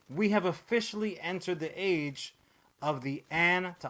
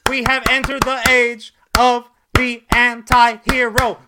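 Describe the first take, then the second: First: It is said in his plain voice. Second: It is said in a sassy girlfriend voice.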